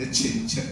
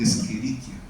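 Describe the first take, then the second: First: The 'ch' is said like 'ch' in 'church'. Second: The 'ch' is said like a 'k' sound. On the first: It sounds natural to a Bogotá local. "suena muy bien para un cachaco, para un bogotano, que les, nos gustan las palabras con che" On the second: It sounds more academic. "suele sonar un poco más académico"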